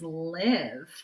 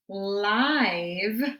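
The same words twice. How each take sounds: First: The vowel is a short 'ih' sound. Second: The vowel is a long 'eye' sound. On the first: The word breaks its usual spelling rule. "we're using it as live" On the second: The silent E follows its usual rule. "live would not be an oddball"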